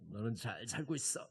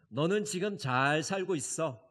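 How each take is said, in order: First: It is said grumpily, with a frown. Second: It is said warmly, with a smile.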